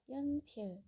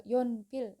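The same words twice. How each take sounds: First: Yonpil with an ordinary unrounded yo; plain yo. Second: Yonpil with lips pushed out and rounded, the wrong way; pouted wrong yo. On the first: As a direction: say yonpil with a normal relaxed yo. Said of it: "yo biasa". (yonpil dengan yo biasa, tidak manyun) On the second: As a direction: exaggerate a pouty rounded yo in yonpil. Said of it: "yonnya itu nggak manyun ya". (yonpil dengan bibir manyun, contoh salah) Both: Shown as a demonstration.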